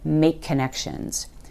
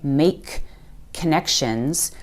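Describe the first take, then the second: First: One linked k sound joins the words. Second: The two k sounds are said separately. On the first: The speaker calls it right. "use that linked k sound to join those two words together" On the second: The speaker calls it wrong. "we're not going to say make connections"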